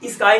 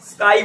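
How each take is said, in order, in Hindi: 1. s से पहले एक अतिरिक्त स्वर की आवाज़ आती है। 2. शब्द सीधे s की आवाज़ से शुरू होता है। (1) "इसको स्काई नहीं बोलते" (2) "स्काई बोलते हो"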